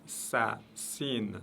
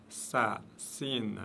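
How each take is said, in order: The two takes are said the same way.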